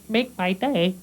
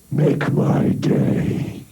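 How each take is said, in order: First: It is said in a normal voice. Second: It is said in a scary, altered voice.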